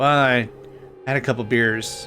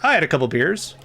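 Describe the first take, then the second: First: It is said in a sheepish, guilty tone. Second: It is said in a hearty old sea captain's voice. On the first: The speaker is giving in and feels bad about it. The speaker calls it wrong. "like it sounds guilty" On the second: The speaker is proud and unapologetic about it. The speaker calls it right. "saying it like I'm a captain on an old maritime vessel"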